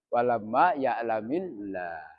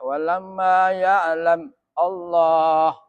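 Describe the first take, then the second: First: Ya'lam links into Allah with an i vowel. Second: Ya'lam ends in m, separate from Allah. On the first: The speaker calls it right. "kita harus baca terus" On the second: The speaker calls it wrong. "kita tidak boleh membaca"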